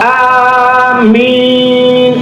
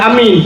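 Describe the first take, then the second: First: The vowels are drawn out long. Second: The vowels are said short. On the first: It asks God to accept the prayer. "ah panjang min panjang" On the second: It means trustworthy. "makna amin amanah"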